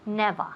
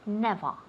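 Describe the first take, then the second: The two takes are said the same way.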